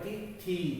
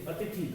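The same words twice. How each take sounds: First: The final vowel is a long ee. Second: The final vowel is a short i. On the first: The speaker calls it wrong. "बड़ी ई की मात्रा ये गलत है" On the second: The speaker calls it right. "हमारा पहला शब्द ही सही है"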